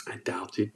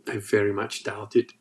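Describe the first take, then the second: First: Whispered doubt. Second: Said in the usual way. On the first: Real, not acted. Skeptical aside about IQ claim.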